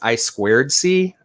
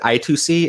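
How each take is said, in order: First: The middle of the term is said as 'squared'. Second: The middle of the term is said as 'two'. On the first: The speaker calls it right. "It's actually referred to as" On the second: The speaker calls it wrong. "I keep mispronouncing it"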